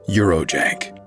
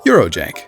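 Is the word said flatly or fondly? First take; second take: flatly; fondly. First: The word is said in a plain, neutral tone. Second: The word is said in a warm, affectionate tone. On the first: The speaker calls it wrong. "you don't say it that way for this game" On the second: The speaker calls it right. "you say it like this. ... like, he's our dumpster, like that kind of way"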